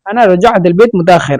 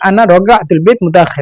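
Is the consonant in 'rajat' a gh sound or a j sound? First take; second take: j sound; gh sound. First: The consonant in rajat is a j sound. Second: The consonant in rajat is a throaty gh sound. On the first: "অথবা জিম বলবে" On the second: "জিমকে হয়তো বা গয়ন বলবে"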